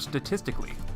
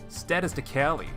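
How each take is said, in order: First: The stress falls on the usual syllable. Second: The stress falls on an unexpected syllable.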